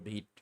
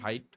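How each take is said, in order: First: The vowel sounds like 'ee', as in 'veet'. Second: The vowel sounds like 'eye', as in 'vite'. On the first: The speaker calls it right. "আসলে উচ্চারণ হবে ভিট" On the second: The speaker calls it wrong. "এইটার উচ্চারণ অনেকে করেন ভাইট"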